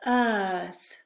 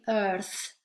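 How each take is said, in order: First: Earth with a long vowel and no R. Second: Earth with a hard rhotic R. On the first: Teacher showing students a natural earth, long vowel. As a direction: stretch the vowel in earth, drop the R. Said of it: "make the vowel longer". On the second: Teacher showing students the wrong earth, R sounded. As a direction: say earth pronouncing the R. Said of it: "We don't say earth". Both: Shown as a demonstration.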